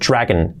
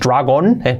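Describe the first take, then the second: First: The last vowel is reduced toward E. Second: The last vowel is a full O sound. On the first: The speaker calls it right. "Esa O-N tiende a hacerse una E" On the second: The speaker calls it wrong. "No es dragón"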